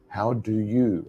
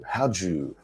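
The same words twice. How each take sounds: First: Unreduced "do" and "you" in "How do you"; careful citation form of "How do you"; full careful form. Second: Quick joined "how do you", the do shrunk to a j; connected-speech version of "how do you"; reduced linked form. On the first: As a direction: say "How do you" as three distinct full words. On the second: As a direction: squeeze "how do you" into "how-joo". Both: Shown as a demonstration. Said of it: "let's think about that pronunciation".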